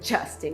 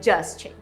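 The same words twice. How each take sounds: First: The name begins with a soft dj sound. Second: The name begins with a hard d sound. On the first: The speaker calls it right. "É Justin" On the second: The speaker calls it wrong. "não é Justin"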